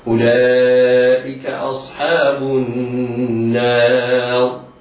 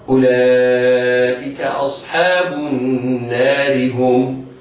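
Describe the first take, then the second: First: The r is heavy and the phrase stops there. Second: The r is light and runs into the next word. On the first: "حكمها التفخيم هكذا" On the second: "في حال الوصل مكسورة فيجب ترقيقها هكذا"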